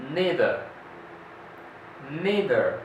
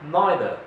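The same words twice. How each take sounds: First: Neither with EE, NEE-ther; American neither, NEE-ther. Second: Neither with EYE, NYE-ther; British neither, NYE-ther. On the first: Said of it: "In the American, they say". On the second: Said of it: "But in the British, they say". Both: Shown as a demonstration.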